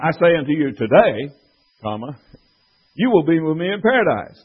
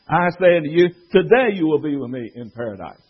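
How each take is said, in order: First: The pause comes after the word today. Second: The pause comes after the word you.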